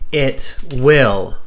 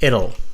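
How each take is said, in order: First: Both words are said in full. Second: The words are contracted into one syllable. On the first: The speaker calls it right. "say it will" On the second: The speaker calls it wrong. "not it'll"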